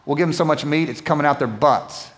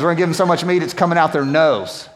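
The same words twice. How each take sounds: First: Said in the usual way. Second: Corrected line, bolder. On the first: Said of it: "I changed that". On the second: Shown as a demonstration. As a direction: restate the real verse with more punch. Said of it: "it says nostrils, actually".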